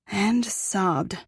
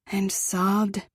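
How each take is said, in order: Both takes have the same delivery.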